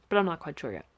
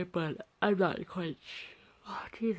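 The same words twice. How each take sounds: First: Said in the usual way. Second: Speech swallowed by a real yawn; slow, breath-heavy words through a yawn. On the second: Real, not acted. Tired artist interrupted mid-sentence while showing sketches, yawning. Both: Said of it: "I'm yawning again".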